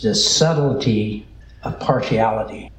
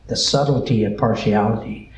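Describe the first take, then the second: First: Said in the usual way. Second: Weight the word subtlety; stress on subtlety. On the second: Shown as a demonstration. Preacher repeating his sermon title, stress on subtlety. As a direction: lean on subtlety, the other words said lightly. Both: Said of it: "with emphasis to be put on the word subtle".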